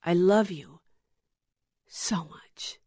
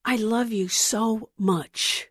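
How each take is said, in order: First: Love you, so much whispered; love you fading to a whisper. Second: Slow, soft, tender declaration; Jesus telling the viewer gently he loves them, slow and soft; Jesus speaking tenderly. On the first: Jesus telling the viewer he loves them, trailing into a whisper. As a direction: let so much drop into a whisper. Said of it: "what Jesus tells you". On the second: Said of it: "is what Jesus tells you". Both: Acted.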